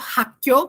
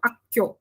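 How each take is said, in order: First: The word begins with an h sound. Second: The word begins directly with a vowel. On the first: "é mais comum as pessoas falarem o som de, o som de R R" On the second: "do que o sem som"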